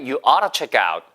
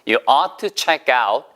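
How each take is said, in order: First: The phrase is said quickly. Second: The phrase is said at a normal pace.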